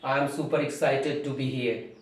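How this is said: It is said harshly, sounding angry. "when you are angry"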